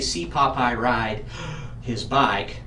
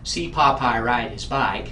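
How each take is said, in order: First: It is broken by a breath in the middle. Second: It is said in one breath without pausing. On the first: The speaker calls it wrong. "You wouldn't say, ... It just isn't going to sound right" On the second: The speaker calls it right. "notice that I didn't breathe anywhere in the middle of the sentence"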